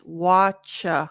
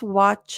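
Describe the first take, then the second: First: The final ch sound is strong and full. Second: The final ch sound is small and light. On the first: The speaker calls it wrong. "If you just practice watch, cha, that would not be realistic" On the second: The speaker calls it right. "it was a smaller sound"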